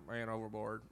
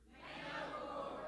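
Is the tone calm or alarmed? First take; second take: calm; alarmed. First: It is said calmly, without concern. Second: It is shouted with alarm and urgency.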